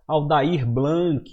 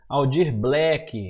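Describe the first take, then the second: First: The first name's vowel becomes an ai sound. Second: The surname ends with a k sound. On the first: "Muita gente fala errado" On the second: "Muita gente fala errado"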